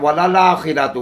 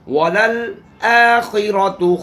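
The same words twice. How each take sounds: First: The glottal stop before the vowel is dropped. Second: The glottal stop before the vowel is clear. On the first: The speaker calls it wrong. "बाद लोग पढ़ते हैं वलल आखिरतु, ... हमजा पढ़ती नहीं है" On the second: The speaker calls it right. "इस हमजा को तहकीक के साथ पढ़ना है"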